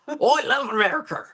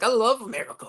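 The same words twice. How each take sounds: First: It is said in a put-on Australian accent. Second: It is said in a plain, normal voice.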